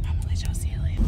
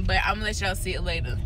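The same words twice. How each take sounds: First: Breathy secret whisper. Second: Said in the usual way. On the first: Shown as a demonstration. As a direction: lean in and whisper it like a teaser. Whispered repeat of previous line.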